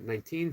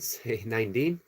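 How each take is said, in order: First: The last syllable is said with a clear t. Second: The last syllable is said with a d sound. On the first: "Instead of saying teen" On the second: "say Dean"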